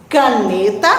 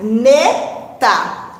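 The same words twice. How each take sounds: First: Said in the usual way. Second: "caneta" slowly split into ca, ne, ta; syllable by syllable. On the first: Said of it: "vamos primeiro separar as sílabas". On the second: Shown as a demonstration. Teacher splitting "caneta" for pupils, slowly syllable by syllable. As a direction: separate each syllable of "caneta". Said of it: "separar as sílabas".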